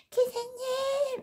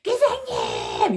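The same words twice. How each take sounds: First: Put-on high, slow, thin girlish call to the driver; dainty high cry. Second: High, loud, drawn-out yell at the driver; tough bellow. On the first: Timid young woman softly crying out to the bus driver. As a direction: call out sweetly and timidly, drawn out. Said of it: "그분은 어떻게 질렀냐면". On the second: Retold or imitated. Woman shouting at the bus driver to stop, tough bellow. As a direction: bellow it like a burly man. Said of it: "이렇게 질렀고 전".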